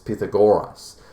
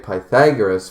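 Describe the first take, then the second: First: It is said the ancient Greek way. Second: It is said the usual English way. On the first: The speaker calls it right. "apparently it's Pythagoras, and that's because ancient Greek uh, spelling and pronunciation" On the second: The speaker calls it wrong. "I'm going to say Pythagoras"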